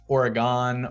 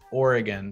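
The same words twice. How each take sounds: First: The first syllable does not sound like 'or'. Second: The first syllable sounds like the word 'or'. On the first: The speaker calls it wrong. "you've probably heard people say Oregon" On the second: The speaker calls it right. "the cor- correct pronunciation, which is Oregon. So it's, you know, think about or"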